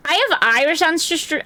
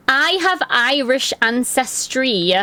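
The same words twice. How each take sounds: First: Said in the usual way. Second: "I have Irish ancestry" said slowly, leaning on "have"; slow emphatic restatement. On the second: Real, not acted. Telling chat about her Irish roots, slow and emphatic. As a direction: spell it out deliberately after stumbling.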